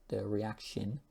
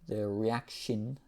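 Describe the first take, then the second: No difference in how they are said.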